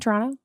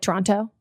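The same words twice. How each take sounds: First: The name is said with a Canadian pronunciation. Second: The name is said with a non-Canadian pronunciation. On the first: "Very Canadian" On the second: "not like"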